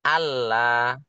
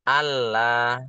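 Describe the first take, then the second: The two takes are said the same way.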